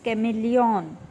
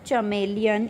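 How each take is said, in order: First: The word begins with a k sound. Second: The word begins with a ch sound. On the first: The speaker calls it right. "It's कैमेलियन" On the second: The speaker calls it wrong. "It's not चमेलियन"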